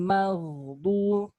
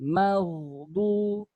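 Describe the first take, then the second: Both takes have the same delivery.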